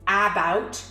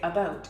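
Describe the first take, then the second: First: The first vowel is a full, strong vowel. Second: The first vowel is a weak uh sound. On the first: The speaker calls it wrong. "or about" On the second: The speaker calls it right. "we say about"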